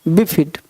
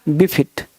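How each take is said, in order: No difference in how they are said.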